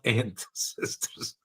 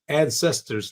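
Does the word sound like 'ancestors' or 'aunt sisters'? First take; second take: aunt sisters; ancestors. First: It is said like the two words aunt sisters. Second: It is said as the ordinary word ancestors. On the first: The speaker calls it wrong. "not ancestors" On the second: The speaker calls it right. "must be ancestors"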